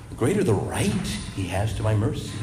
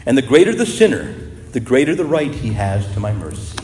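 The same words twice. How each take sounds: First: Softer, savouring each word; softer repeat. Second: Said in the usual way. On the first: Shown as a demonstration. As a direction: let it sink in quietly. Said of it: "quote repeated softly for emphasis". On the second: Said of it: "quote then repeated softly".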